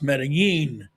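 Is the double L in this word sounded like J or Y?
Y. The double L sounds like a Y. This is how it is said in Ecuador. "if you're in Ecuador, it's pronounced"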